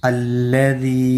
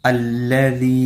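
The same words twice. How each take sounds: No difference in how they are said.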